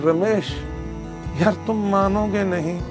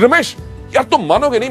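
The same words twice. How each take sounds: First: It is said without excitement, flatly. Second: It is said with excitement and energy.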